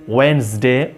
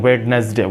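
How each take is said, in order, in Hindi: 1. पहला 'd' मौन है, जिससे दो अक्षर बनते हैं। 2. पहला 'd' बोला जाता है, जिससे तीन अक्षर बनते हैं। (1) "वेडनेसडे नहीं होता है, वेंसडे" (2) "कुछ लोग इसको वेडनेसडे पढ़ते हैं"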